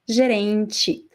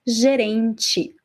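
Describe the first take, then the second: Both takes have the same delivery.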